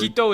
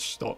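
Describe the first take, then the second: First: The word begins with a clear 'h' sound. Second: The word begins with a soft 'sh' sound. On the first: The speaker calls it wrong. "Hito is not right" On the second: The speaker calls it right. "It's Shito"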